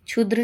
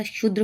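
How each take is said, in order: First: क्षुद्र starting with "chh", chhudr; wrong pronunciation. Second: Said in the usual way. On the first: Shown as a demonstration. Teacher rejecting a mistake, क्षुद्र said chhudr. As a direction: begin क्षुद्र as chhu, not shu. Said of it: "नहीं होता". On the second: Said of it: "होता है".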